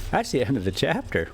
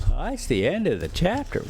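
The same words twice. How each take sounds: First: Said in the usual way. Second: Higher, teasing chapter-end sign-off; playful higher repeat. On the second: Shown as a demonstration. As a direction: sing it out higher, stress on chapter, rising at the end.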